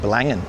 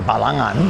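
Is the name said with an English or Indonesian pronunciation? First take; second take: English; Indonesian. First: It is pronounced the English or Australian way. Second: It is pronounced the Indonesian way. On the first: "most people are just probably saying" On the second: "the way that you should say it if you're saying it with an Indonesian accent"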